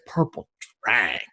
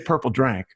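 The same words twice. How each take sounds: First: It is said with exaggerated, drawn-out flair. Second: It is said plainly, without flair.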